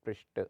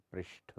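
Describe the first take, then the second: First: पृष्ठ said as prisht; unaspirated t. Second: पृष्ठ ending in breathy tha; aspirated th. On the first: Teacher shows the error, पृष्ठ with ट. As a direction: end पृष्ठ short, no puff. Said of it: "पृष्ठ होता है". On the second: Teacher corrects it, पृष्ठ with breathy ठ. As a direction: puff air on the ठ of पृष्ठ. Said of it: "होता है". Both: Shown as a demonstration.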